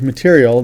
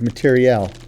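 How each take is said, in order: First: The word has its everyday, ordinary pronunciation. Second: The word has a fancy, specialist jargon pronunciation. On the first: This is the common word ordinary people use. "They don't move material" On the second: This is how military experts refer to it. "how fancy experts say it"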